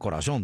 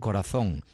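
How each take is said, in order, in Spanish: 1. La z se pronuncia como una s. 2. La z se pronuncia como un th. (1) "no decían corazón" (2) "decían corazón"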